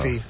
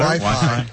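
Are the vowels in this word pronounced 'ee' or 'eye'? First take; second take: ee; eye. First: Both syllables are said with an 'ee' vowel. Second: Both syllables are said with an 'eye' vowel. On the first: This is how it is said in Europe. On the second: This is the usual local pronunciation.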